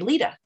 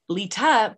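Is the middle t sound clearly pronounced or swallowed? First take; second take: swallowed; clear. First: The middle t is swallowed, Utah style. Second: The middle t is clearly pronounced. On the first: The speaker calls it wrong. "but I say Lita" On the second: The speaker calls it right. "I should be saying Lita"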